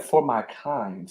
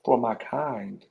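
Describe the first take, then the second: First: Slow, soft, disbelieving echo; stunned murmur. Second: Slow, soft, stunned repeat; stunned low repeat. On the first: Retold or imitated. Recalling the colonel's insult, a slow stunned murmur. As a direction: murmur it back, slow and hurt. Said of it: "I was like". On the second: Real, not acted. Repeating the colonel's words to himself, stunned and quiet. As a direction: let it sink in, slow and quiet. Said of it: "I automatically went back to slavery time".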